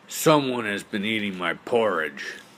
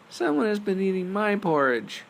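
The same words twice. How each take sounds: First: It is said in a big, deep voice. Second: It is said in a tiny, high voice. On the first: "cried out in his great big voice" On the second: "cried out in his tiny little voice"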